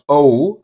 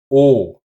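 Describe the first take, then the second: First: "O" gliding into an oo, American style. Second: "O" pure and rounded, no movement in the vowel; German O. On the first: Teacher shows what to avoid, an American gliding "O". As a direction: let "O" slide from oh to oo. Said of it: "like in American English". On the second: Teacher corrects to the German monotone "O". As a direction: round the lips and hold "O" perfectly still. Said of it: "no movement within the vowel". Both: Shown as a demonstration.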